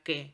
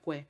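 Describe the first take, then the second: First: The u after the q is silent. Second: The u after the q is clearly heard. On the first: "esa U no suena" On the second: "en latín diría que"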